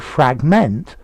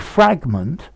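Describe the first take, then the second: First: The stress is on the second syllable. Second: The stress is on the first syllable. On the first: It is used as a verb. "stress on the second part" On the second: It is used as a noun. "noun, stress on the first"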